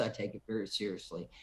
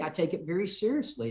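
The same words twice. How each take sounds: First: Dropped low and soft, quicker, for weight; quiet, lower repeat. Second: Said in the usual way. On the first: Shown as a demonstration. Congressman repeating his point to a caller, low and soft. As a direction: say it again under your breath, quickly. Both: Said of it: "As a member of Congress".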